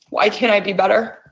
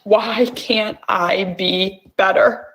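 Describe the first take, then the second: First: Fast, pressing question to herself; quick plea. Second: Slow, drawn-out question to herself; slow plea. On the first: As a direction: rush the question out. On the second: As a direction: let each word sink in slowly. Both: Shown as a demonstration. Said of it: "tapping phrase repeated".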